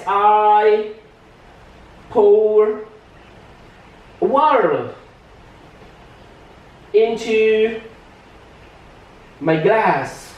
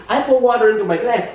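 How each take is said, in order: First: "I... pour... water... into... my glass" with long pauses between words; slow teacher's dictation, each word stretched out; word-by-word demo. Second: Said in the usual way. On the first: Shown as a demonstration. (diucapkan pelan, kata demi kata) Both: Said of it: "contoh gini".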